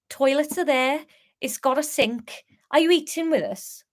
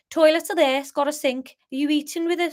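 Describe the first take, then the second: First: Higher-pitched Scouse sliding into Welsh; attempted Scouse accent. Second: Higher-pitched Scouse attempt landing in Birmingham; botched Scouse with a Brummie sound; Scouse gone Birmingham. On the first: Pub landlord asking guests about dinner, wobbly Scouse-Welsh accent. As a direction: try Scouse, drift Welsh at the end. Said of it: "that went Welsh on the last bit". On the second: Pub landlord asking guests about dinner, accidental Birmingham accent. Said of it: "That's Birmingham, isn't it?".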